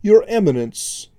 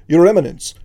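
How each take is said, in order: First: Lightly voiced oily envoy; a hint of smooth oily menace; firm but oily voice. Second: Loud ceremonial address; formal announcement. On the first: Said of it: "spoke in a firm but oily voice". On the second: Acted. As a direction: proclaim it to the court. Court angel opens formal address.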